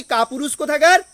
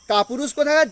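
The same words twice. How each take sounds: First: Mock scornful jab, rising at the end; Lady Macbeth's taunt, lightly acted. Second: Mild mock sneer, falling firmly at the end; taunting scorn. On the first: Teacher voicing Lady Macbeth taunting her husband, mild scorn. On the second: Teacher voicing Lady Macbeth's final taunt, mild contempt. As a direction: spit the insult out, understated. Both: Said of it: "যেমনি কাপুরুষ বললো".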